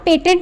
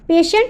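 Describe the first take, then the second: First: The middle consonant is a t sound. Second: The middle consonant is an sh sound. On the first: The speaker calls it wrong. "इसको हम पेटेंट नहीं बोलेंगे" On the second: The speaker calls it right. "इसको हम पेशेंट बोलेंगे"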